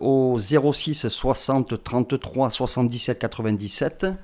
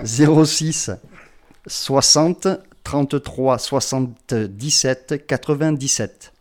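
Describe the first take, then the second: First: The number is said at normal speed. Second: The number is said slowly.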